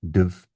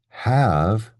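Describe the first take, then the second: First: The word is reduced to a weak form. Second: The word is said in full.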